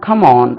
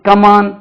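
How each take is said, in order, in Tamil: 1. K ஒலியை மூச்சுக் காற்றுடன் சொல்கிறோம். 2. K ஒலியை மூச்சுக் காற்று இல்லாமல் சொல்கிறோம். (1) "அது கேலையும் அது வரும்" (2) "நம்ம வந்து come on அப்படி அல்ல"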